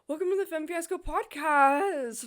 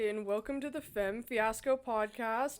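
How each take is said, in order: First: It is said in a very high voice. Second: It is said in her normal pitch.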